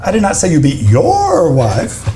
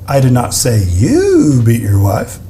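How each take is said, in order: First: "your" punched, the rest level; stress on your. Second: "you" lifted and held, slow delivery; slow, lean into "you" with a rise; slow take stressing "you". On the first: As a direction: hit "your" to change the meaning. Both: Shown as a demonstration. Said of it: "Changes every time".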